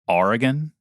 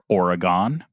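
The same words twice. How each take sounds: First: The first vowel is a long 'ah' sound. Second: The first vowel is an 'oh' sound. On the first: This is the parents' Brooklyn way. "I pronounce this, the name of the state" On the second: This is the local California way. "a lot of people who said"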